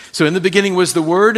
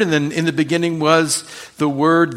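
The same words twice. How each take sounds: First: Fast, louder run at the line "So in the beginning was the Word"; emphatic fast take. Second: Said in the usual way. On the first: Shown as a demonstration. Pastor drills the verse home for his congregation, fast and loud. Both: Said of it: "He's making a definitive statement".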